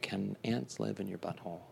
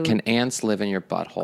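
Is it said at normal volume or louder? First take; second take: normal; louder. First: It is said at normal volume. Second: It is said more loudly.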